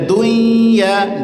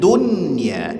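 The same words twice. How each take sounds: First: The n sound merges into the following y. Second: The n sound is pronounced clearly before y. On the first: The speaker calls it wrong. "jangan dibaca dunya" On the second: The speaker calls it right. "tapi dunya, izhar bacanya"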